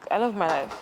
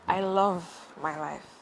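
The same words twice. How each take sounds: First: It is said plainly, without dramatic attitude. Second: It is said with dramatic poetic attitude.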